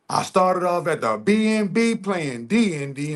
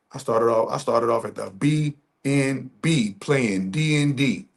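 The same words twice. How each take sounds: First: Mock singsong delivery. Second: Said in the usual way. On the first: Shown as a demonstration. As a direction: sing it back like a punchline. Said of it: "repeated line". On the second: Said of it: "repeated line differently".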